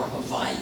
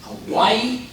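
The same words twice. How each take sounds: First: "Hawaii" with a V for the W; V pronunciation. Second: Said in the usual way. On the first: Shown as a demonstration. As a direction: say "Hawaii" as ha-VAI-ee. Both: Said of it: "How do you pronounce it?".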